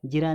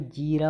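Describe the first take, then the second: First: जीरा as quick "ji-raa"; wrong short i. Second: जीरा as "jee-raa"; long ee. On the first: Teacher showing the error, short-i जीरा. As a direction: clip the first vowel of जीरा. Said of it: "नहीं". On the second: Teacher correcting students, long-ee जीरा. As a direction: hold the ee in जीरा. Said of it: "होता है". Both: Shown as a demonstration.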